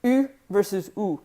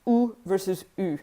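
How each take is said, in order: First: 'U'는 앞쪽 u로, 'ou'는 뒤쪽 ou로 대비; 두 모음을 나란히 놓고 차이를 들려주기; u versus ou contrast. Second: 첫 'U'는 앞쪽 u, 둘째 'U'는 뒤쪽 ou로; 두 U 소리를 조용히 나란히 대비; u versus ou contrast. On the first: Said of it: "the difference between the U". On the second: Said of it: "two different U sounds". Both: Shown as a demonstration.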